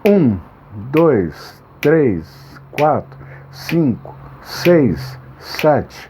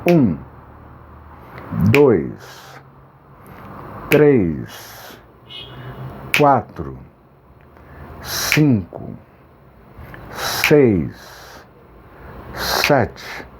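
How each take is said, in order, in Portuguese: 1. A contagem é mais rápida, com pausas mais curtas. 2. A contagem é mais lenta, com pausas mais longas.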